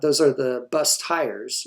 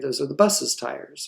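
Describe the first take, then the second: First: No extra syllable follows the word bus. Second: An extra 'iz' syllable follows bus. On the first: The speaker calls it wrong. "you'd never say" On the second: The speaker calls it right. "You would say"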